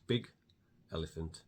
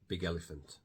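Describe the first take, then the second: First: The words are said separately, without linking. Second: The g sound runs into the next word.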